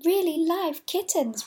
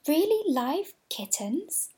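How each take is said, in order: First: High, loud, slow confirming fall; emphatic answer. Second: High, slow, rising disbelief; amazed question. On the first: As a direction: confirm it proudly, falling firmly. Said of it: "replied Fido". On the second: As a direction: ask it wide-eyed and amazed. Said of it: "cried all the dolls". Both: A narrator's reading.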